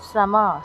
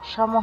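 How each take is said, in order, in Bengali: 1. এটি সাধারণ 's' ধ্বনি দিয়ে শুরু হয়। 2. এটি সাধারণ 's' ধ্বনি ছাড়া শুরু হয়। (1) "দন্তস্বয়ের শুদ্ধ সংস্কৃত উচ্চারণ ইংরেজি সো এর মতো" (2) "সম হবে না"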